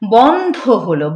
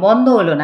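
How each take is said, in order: First: The dh sound is forceful and aspirated. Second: The dh sound is weak and unaspirated. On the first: The speaker calls it right. "ধ উচ্চারণটা কিন্তু জোর দিয়ে করতে হবে" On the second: The speaker calls it wrong. "তা কিন্তু বন্ধ হলো না"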